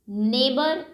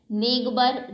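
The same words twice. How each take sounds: First: Said in the usual way. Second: "नेबर" with a hard g before the b; G sounded. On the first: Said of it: "इन सभी में जी silent है". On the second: Shown as a demonstration. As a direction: wrongly voice the silent g in "नेबर", as neg-bar. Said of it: "ऐसा तो कोई नहीं बोलता".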